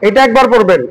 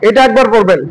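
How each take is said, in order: No difference in how they are said.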